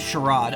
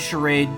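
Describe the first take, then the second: First: It is said with a British pronunciation. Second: It is said with an American pronunciation. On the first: "U K pronunciation is charade" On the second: "American pronunciation is charade"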